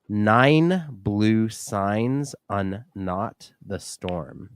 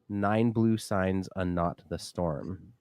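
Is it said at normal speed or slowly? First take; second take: slowly; normal speed. First: It is said more slowly. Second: It is said at normal speed.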